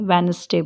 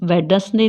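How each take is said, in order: First: The d sound is silent. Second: The d sound is pronounced. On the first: The speaker calls it right. "वेनसडे बोलते हैं" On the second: The speaker calls it wrong. "वेडसडे नहीं बोलते हैं"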